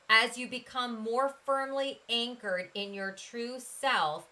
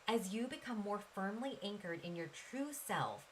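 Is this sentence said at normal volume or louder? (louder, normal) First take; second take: louder; normal. First: It is said more loudly than before. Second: It is said at a normal speaking volume.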